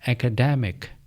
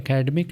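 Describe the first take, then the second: First: The stress is on the 'de' syllable. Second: The stress is not on the 'de' syllable. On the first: The speaker calls it right. "डी पर जोर देना है" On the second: The speaker calls it wrong. "ये academic नहीं है"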